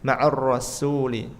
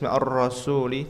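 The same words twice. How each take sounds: First: The s sound is light and thin. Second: The s sound is heavy, not thin. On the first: The speaker calls it right. "tapi tarik dulu ma'ar rasu" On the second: The speaker calls it wrong. "kalau ma'ar rasuli itu enggak tipis"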